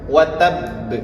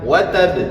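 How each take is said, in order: First: The doubled final b is held about a second. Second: The final b is released quickly without holding. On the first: The speaker calls it right. "ditahan satu detik" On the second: The speaker calls it wrong. "Jadi jangan"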